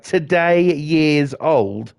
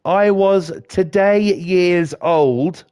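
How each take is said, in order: First: Slow, drawn-out mocking echo; mocking disbelief. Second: Slow, drawn-out mocking quote; mocking the meme. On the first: Ranting at the meme, slow and incredulous. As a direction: drag the phrase out in disbelief. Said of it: "And I'm like". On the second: Mocking the social media phrase, slow and drawn out. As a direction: stretch it out to mock the phrase. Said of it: "and that's like".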